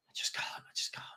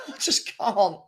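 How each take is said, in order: First: Breathed I just can't with no voice; whisper. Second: Said in the usual way. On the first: Real, not acted. Fed-up host muttering to himself, whispered. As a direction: drop to a defeated whisper. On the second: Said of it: "Oh, I just can't".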